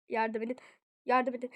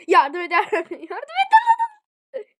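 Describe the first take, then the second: First: Said in the usual way. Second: Loud, higher desperate yell; screamed plea for help. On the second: Real, not acted. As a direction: scream for rescue as you go down. Escalating calls for help, dying.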